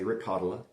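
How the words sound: The name is said in a New England accent. "like maybe you're from New England"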